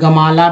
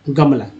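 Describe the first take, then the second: First: The word is said with three syllables. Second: The word is said with two syllables. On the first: "लोग पढ़ने वाला गमाला भी पढ़ सकते हैं" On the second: "तभी ये गमला लिखा गया है"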